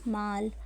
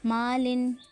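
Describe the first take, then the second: First: The word ends with a bare 'l' sound. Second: The word ends with the nasal 'in' sound. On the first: The reader stops on this word. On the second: The reading continues without stopping.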